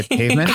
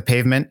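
First: Lightly put-on British accent; Hugh Grant. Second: Said in the usual way. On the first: Joking to podcast hosts about the British word, mock British accent. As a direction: say it with a playful hint of an English accent. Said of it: "in my best Hugh Grant voice".

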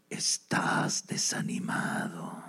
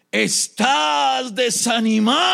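First: Very slow, low sinister whisper; hushed, drawn-out tempter; demon whisper. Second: Slow, high, drawn-out shout; forceful demon. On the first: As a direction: whisper it slowly into his ear. Demon whispers on man's shoulder. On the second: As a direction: bellow it, stretching every word. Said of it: "tomó fuerza este demonio". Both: Acted.

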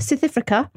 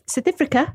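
First: Brief South African accent attempt. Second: South African accent, pitched up. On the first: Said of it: "that's all I can do". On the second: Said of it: "There's my accent". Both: Shown as a demonstration.

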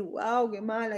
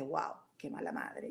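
First: Said in the usual way. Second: Casi en voz baja, mucho más suave, como diciéndose a sí misma "Wow, qué mala madre"; voz interior. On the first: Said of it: "tengo esa opción de decir". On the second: Retold or imitated. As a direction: murmurar el reproche hacia dentro, mucho más suave. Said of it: "mi mente me dice". (la mente critica a la madre, en voz mucho más baja)

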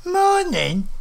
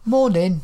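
First: High-pitched indignant echo, rising in disbelief; livid. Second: Jovial morning greeting, a touch raised; almost jovial. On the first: Old woman livid at being greeted with morning, indignant. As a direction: throw the greeting back in high outrage. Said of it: "She was livid". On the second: Narrator surprises himself by greeting an old lady, almost jovial. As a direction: greet with mild good cheer. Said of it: "In an almost jovial manner". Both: A narrator's reading.

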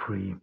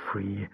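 Both takes have the same delivery.

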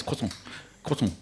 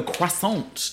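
First: Croissant mumbled as kwuh-son; swallowed French noise. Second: Croissant fully sounded as kwa-SONT; mocked over-pronunciation. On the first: Shown as a demonstration. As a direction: squash croissant into a noise, kwot-n. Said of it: "it's just a noise". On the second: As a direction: spell out croissant with a hard final t. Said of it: "some people go croissant".

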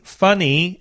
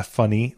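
First: "funny" punched high and loud; stress on funny. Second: Said in the usual way. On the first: Shown as a demonstration. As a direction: hit "funny" hard with raised pitch. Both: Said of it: "emphasis on the funny".

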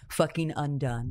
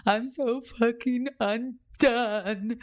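First: Said in the usual way. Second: Slow, higher, louder sob-like cry; tearful retelling. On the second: Retold or imitated. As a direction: let it break out as you relive the sobbing.

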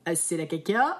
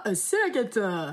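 First: "caca" dit à la place de "cata", montée sur "caca"; "c'est la caca" lancé comme une erreur; lapsus comique. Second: Said in the usual way. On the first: Shown as a demonstration. ("c'est la caca" avec une montée finale)

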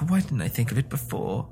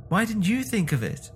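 First: "Why didn't I think of it before?" in a level, breathy-sighed wonder; self-questioning. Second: "you" lifted high in "Why didn't you think of it?"; stress on YOU. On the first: Wife asking herself "Why didn't I think of it before?", musing. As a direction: ask "Why didn't I think of it before?" of yourself, not raised. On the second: Wife turning on husband, high stress on "you". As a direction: punch "you" with a high, falling reproach. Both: A narrator's reading.

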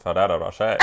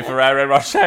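First: "Ferrero Rocher" low, with tapped, d-like r's; Euro pronunciation. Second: Said in the usual way. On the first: Retold or imitated. Man insisting on the name, "Ferrero Rocher" in low Euro pronunciation. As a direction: imitate him: "Ferrero Rocher" as Fa-dadda Ro-shay, low. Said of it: "Why do you not say Ferrero Rocher in a normal accent?". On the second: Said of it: "in a normal accent".

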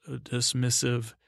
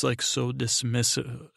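First: Dismissive drawn out slowly, falling at the end; stress on dismissive. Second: Said in the usual way. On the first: Shown as a demonstration. Recapping the show, dwells on dismissive, drawn out.

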